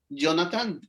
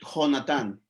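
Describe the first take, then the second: First: The name begins with a y sound. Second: The name begins with a throaty h sound. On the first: This is how the name is commonly pronounced. "se pronuncia en muchas ocasiones Jonathan, como con Y" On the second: This is the name read literally as written. "si nos apegáramos textualmente, eh, diría Jonathan"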